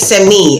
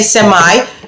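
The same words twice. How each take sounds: First: The word is said in a British accent. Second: The word is said in an American accent. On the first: "British will say semi" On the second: "Americans will say semi"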